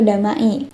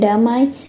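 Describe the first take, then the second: First: The final vowels are said as separate sounds. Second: The final vowels blend into one gliding sound. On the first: The speaker calls it wrong. "tidak dibaca dengan bunyi aslinya, seperti" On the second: The speaker calls it right. "kata ai yang dibaca dengan bunyi y"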